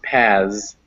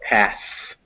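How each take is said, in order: First: The word ends with a buzzing Z sound. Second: The word ends with a hissing S sound. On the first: The speaker calls it wrong. "not a Z sound. So not pass" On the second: The speaker calls it right. "it's with an S sound"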